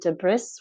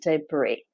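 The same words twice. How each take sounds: First: The final S sound is pronounced. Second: The final S sound is silent. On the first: The speaker calls it wrong. "even though there's an S at the end, we don't pronounce it" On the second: The speaker calls it right. "we pronounce it"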